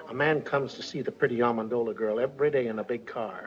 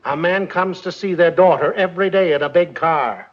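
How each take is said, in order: First: Low, soft gossip; too quiet to hear. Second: Raised voice, projecting to the room; louder repeat. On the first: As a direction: confide it softly, under the room's hearing. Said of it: "We can't hear you". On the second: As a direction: say it louder so everyone hears. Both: Acted.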